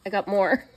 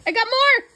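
First: Said in the usual way. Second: High, loud giddy squeal on more; squealed confession. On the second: Real, not acted. Vlogger confessing to viewers she overbought, giddy squeal. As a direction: squeal it out like a guilty shopper. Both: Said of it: "I got more, guys".

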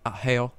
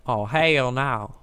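First: "hell" stretched toward two syllables; drawled "hell". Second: "hell" stretched into a slow, loud "hay-ell"; exaggerated drawl. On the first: Real, not acted. Gamer cursing to himself, "hell" mildly drawled. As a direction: lightly draw out the vowel in "hell". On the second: Shown as a demonstration. Gamer mocking own way of saying it, "hell" drawled loudly. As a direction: drag out "hell no" at half speed, hammed up. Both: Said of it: "why I say it like that".

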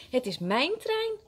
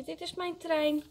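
First: Put-on indignant high child's protest; angry call. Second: Put-on high-pitched child's claim; calling out. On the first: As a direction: protest crossly, stressing your claim. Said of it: "roept Willem boos". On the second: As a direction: claim a toy in a raised pitch. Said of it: "roept Frankje". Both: A narrator's reading.

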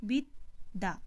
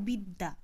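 First: বিদ্যা said biddā with a doubled d; বিদ্যা pronounced as biddā, the d held twice; doubled d sound. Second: Said in the usual way. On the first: Shown as a demonstration. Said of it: "দটা কিন্তু আমার শব্দের শেষে আছে আর দয়ে জ ফেলা আছে". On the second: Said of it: "কিন্তু দেখো, উচ্চারণের সময় আমরা কি উচ্চারণ করছি?".

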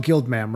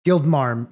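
First: "Guild Mam", short vowel as in ham; mistaken "Mam". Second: "Guild Marm", open vowel as in farm; corrected "Marm". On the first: Recalling the receptionist's name, "Guild Mam" without the r. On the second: Correcting the receptionist's name, "Guild Marm" with r. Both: Real, not acted. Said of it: "I know in my head that it's Guild Marm".

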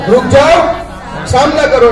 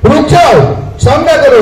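First: Shouted call again. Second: Loud commanding call to stop; shouted call. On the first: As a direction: call out to make him stand and face them. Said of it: "શું કીધું?". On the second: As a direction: call out sharply to make him halt. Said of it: "જોરથી બૂમ પાડી સ્વામીજીને". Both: Retold or imitated.

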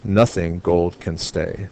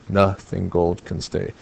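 First: Said in the usual way. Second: "Nothing" broken after a stressed NOTH; half-iamb scansion. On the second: Shown as a demonstration. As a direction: split "Nothing" so NOTH stands alone, then two beats on "gold can stay". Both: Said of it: "It has half an iamb".

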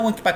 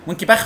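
First: وانكباخ ending in a hard k, no kh; English pronunciation. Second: وينكي باخ with a throaty kh at the end; Egyptian pronunciation. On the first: Lecturer showing how Wenckebach is said abroad, hard k. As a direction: say وانكباخ the English way, a clean k sound. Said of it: "اسمها وانكباخ فينومينا لو انت بره". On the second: Lecturer showing how Egyptians say Wenckebach, with a throaty kh. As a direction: say باخ with the Arabic خ, not a k. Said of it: "تقول لهم وينكي باخ". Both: Shown as a demonstration.

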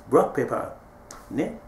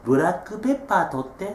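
First: ブラックペッパー said English-style, "black pepper" without the added vowels; good English pronunciation. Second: ブラックペッパー said the Japanese katakana way, with extra vowels, bu-ra-kku-pe-ppā; katakana pronunciation. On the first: Chinese student recognising the word, in good English pronunciation. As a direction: clip ブラックペッパー into English consonant clusters, blak-pep-per. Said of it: "発音よく".

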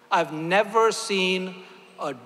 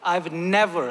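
First: "never" leaned on, slow and drawn out; slow down and weigh the word "never"; stress on never. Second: Said in the usual way. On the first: Shown as a demonstration. Speaker to the congregation, slowly stressing "never". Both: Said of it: "I want to emphasize the word and never".

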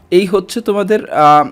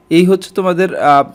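Both takes have the same delivery.

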